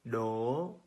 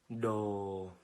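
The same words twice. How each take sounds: First: The pitch is high and rising. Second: The pitch is low and falling. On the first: "The second" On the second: "low falling"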